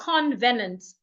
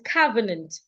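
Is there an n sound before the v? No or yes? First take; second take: yes; no. First: An n sound comes before the v. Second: No n sound comes before the v. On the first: The speaker calls it wrong. "It's not convenant. There is no N after the O" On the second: The speaker calls it right. "It's covenant"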